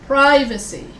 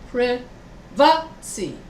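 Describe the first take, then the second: First: The stress is on the first syllable. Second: The stress is on the second syllable. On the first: This is the American pronunciation. "In America, we say privacy. So here, we stress the first vowel, pri" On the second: This is the British pronunciation. "But in England, they stress the second syllable. So it's privacy"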